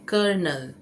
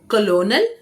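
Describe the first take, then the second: First: The word is said with an R, 'kernel'. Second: The word is said with an L, 'co-lo-nel'. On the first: The speaker calls it right. "इसे कर्नल कहते हैं" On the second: The speaker calls it wrong. "कलोनल नहीं है"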